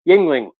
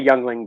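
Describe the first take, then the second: First: The first syllable sounds like 'ying'. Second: The first syllable sounds like 'young'. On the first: The speaker calls it right. "I said it right this time" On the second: The speaker calls it wrong. "I always say Youngling because it pisses off my American friends"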